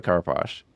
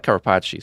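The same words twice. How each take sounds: First: Carapace said as "cara-posh"; three-syllable Carapace ending like "posh"; probable pronunciation. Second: Carapace said as "cara-PAH-chee"; punchy, louder Carapace as "carapachi"; preferred mispronunciation. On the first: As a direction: end Carapace on "sh", no final vowel. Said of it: "but it's probably Carapace". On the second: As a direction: add a "chee" ending to Carapace. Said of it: "so I'm gonna call it Carapace". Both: Shown as a demonstration.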